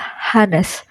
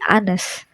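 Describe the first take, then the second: First: The word begins with an audible h sound. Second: The word begins directly with a vowel sound. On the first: The speaker calls it wrong. "dibaca bukan Hanes" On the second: The speaker calls it right. "tapi Anes. Anes karena di- dia dimulai dari O bacanya"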